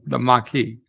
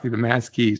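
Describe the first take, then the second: First: The word sounds like 'mah-kee'. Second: The word sounds like 'mass keys'. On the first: The speaker calls it right. "No, it's called the the Maquis" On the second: The speaker calls it wrong. "if somebody said the mass keys, like what the fuck"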